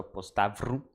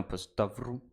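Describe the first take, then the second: First: Postavru said with even, unsure stress; saying postavru tentatively before correcting; first try, stress unsure. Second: Postavru with the stress moved to the second to last syllable, TA; corrected stress. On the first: Trying postavru after the stress hint, unsure. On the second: Correcting postavru after the stress hint, second to last syllable stressed. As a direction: hit the TA in postavru. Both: Shown as a demonstration. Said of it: "emphasis on the second to last syllable".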